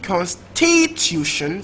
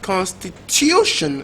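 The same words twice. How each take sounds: First: The stress is on the second syllable. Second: The stress is on the third syllable. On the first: The speaker calls it wrong. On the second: The speaker calls it right.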